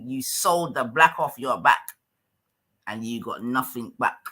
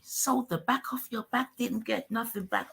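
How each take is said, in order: First: Said in the usual way. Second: Mocking the line back in a higher voice; mock high echo. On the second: Streamer echoes the guest's words back in a mocking higher voice. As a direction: parrot it back higher, teasing.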